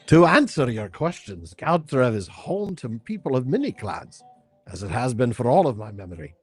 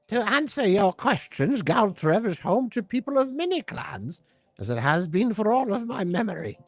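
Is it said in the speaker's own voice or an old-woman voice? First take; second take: own voice; old-woman voice. First: It is said in the speaker's own voice. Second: It is said in a put-on old-woman voice.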